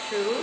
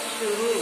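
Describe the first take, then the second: First: The final u vowel is short. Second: The final u vowel is long. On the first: The speaker calls it wrong. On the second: The speaker calls it right.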